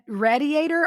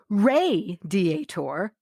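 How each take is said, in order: First: The first syllable sounds like 'rad'. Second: The first syllable sounds like 'ray'. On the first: "R A D Diator" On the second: "R A Y Diator"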